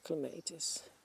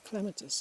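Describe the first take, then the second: First: The word is pronounced the Dutch way. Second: The word is pronounced the English way. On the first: "We say clematis in or clematis in uh, Dutch" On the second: "I always say clematis in English"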